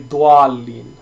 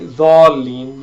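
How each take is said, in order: First: A u sound follows the first consonant. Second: No u sound follows the first consonant. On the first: The speaker calls it wrong. "They they add a u sound into it" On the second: The speaker calls it right. "it's quite quite all right"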